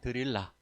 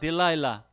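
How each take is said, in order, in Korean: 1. 이 이름은 한국식으로 발음해요. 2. 이 이름은 영어식으로 발음해요. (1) "우리는 그냥" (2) "영어로다가"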